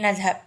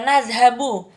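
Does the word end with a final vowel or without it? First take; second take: without vowel; with vowel. First: The word ends on a consonant, vowel dropped. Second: The word ends with a short final vowel. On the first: The speaker calls it right. "Kita hapuskan saja harokat akhir menjadi" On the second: The speaker calls it wrong. "tidak perlu kita uh, baca semisal"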